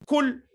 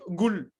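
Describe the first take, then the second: First: It starts with a plain k sound. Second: It starts with a hard g sound. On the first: The speaker's own language lacks the deeper sound. "les gens peuvent dire kul" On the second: This is how a regional dialect says it. "au Yémen... on dit gul"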